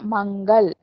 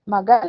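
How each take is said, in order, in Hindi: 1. इसमें 'g' से पहले नासिका ध्वनि होती है। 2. इसमें 'g' से पहले नासिका ध्वनि नहीं होती। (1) "मंगल पढ़ रहे हैं हम" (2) "मगल नहीं पढ़ रहे हैं ना"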